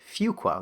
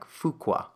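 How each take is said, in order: First: The first syllable sounds like the word 'few'. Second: The first syllable does not sound like 'few'. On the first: The speaker calls it right. "it's actually Fuqua, like the word few" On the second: The speaker calls it wrong. "I always used to mispronounce it"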